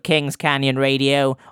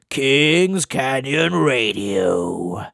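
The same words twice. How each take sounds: First: It is said in the speaker's normal voice. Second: It is said in an exaggerated put-on voice.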